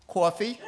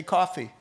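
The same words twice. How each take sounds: First: Put-on "Coffee" as "cawfee", higher, Brooklyn accent; mock Brooklyn accent with a questioning rise. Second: Said in the usual way. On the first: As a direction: give it a rounded Brooklyn vowel. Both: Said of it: "you from Brooklyn".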